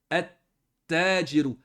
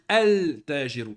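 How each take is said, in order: First: The l merges into a doubled t sound. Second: The l of the article is clearly pronounced. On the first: The speaker calls it right. "on ne prononce pas le lem" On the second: The speaker calls it wrong. "on ne peut pas dire al tajiru. C'est une faute"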